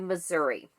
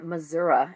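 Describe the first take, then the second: First: Missouri is said in a general, non-local way. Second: Missouri is said the way locals say it.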